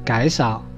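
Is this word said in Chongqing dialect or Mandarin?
Chongqing. The first syllable begins with a velar sound.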